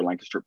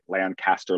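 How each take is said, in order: First: Lancaster as LANK-uh-ster, middle reduced; local pronunciation. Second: Lancaster as LAN-CAST-er, full middle vowel; outsiders' pronunciation. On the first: Host runs through both versions, local pronunciation. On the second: Host runs through both versions, outsiders' pronunciation. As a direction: give Lancaster a clear CAST. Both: Shown as a demonstration.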